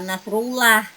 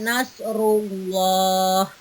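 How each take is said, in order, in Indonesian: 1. L dalam 'llah' itu tipis dan ringan. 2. L dalam 'llah' itu tebal dan berat. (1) "bukan nasrullah ya" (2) "maka kita bacanya nasrullah"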